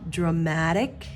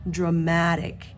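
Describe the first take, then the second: Both takes have the same delivery.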